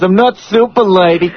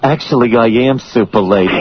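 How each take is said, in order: First: I'm NOT super lady, denial pitched up; mock denial leaning on "not"; stress on NOT. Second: Low confiding admission, "am" emphasized; mock confession in a lower voice, weight on "am"; stress on AM. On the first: Denial, then reversed in next breath. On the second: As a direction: drop the pitch and own up, leaning on "am". Reverses the denial just made.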